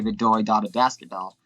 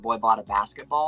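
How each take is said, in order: First: The B sounds are replaced with D sounds. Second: The B sounds are said as normal B sounds. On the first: The sentence is said without closing the lips, as a ventriloquist would. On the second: This is the sentence the substitution aims to sound like.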